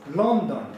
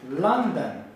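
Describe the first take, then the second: First: The first vowel is a short O. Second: The first vowel is not an O sound. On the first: The speaker calls it wrong. "We don't say London" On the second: The speaker calls it right. "Strong up"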